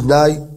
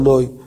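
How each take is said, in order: First: The vowel is pronounced the Sephardi way. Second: The vowel is pronounced the Ashkenazi way. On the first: The speaker calls it right. "אשכנזי שיחליט להתפלל כמו הספרדים, נגיד" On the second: The speaker calls it wrong. "לא"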